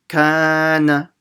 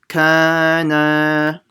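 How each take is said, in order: First: The first vowel is long, the last short. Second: Both the first and last vowels are long. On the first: "the kaf is long and the nun is very short" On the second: "you need to make both of them long"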